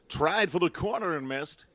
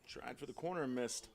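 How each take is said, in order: First: It is said imitating Harry Doyle's voice. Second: It is said in his normal voice.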